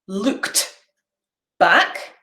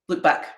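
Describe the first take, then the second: First: Said slowly with the t in looked pronounced. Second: Said quickly with the t in looked dropped.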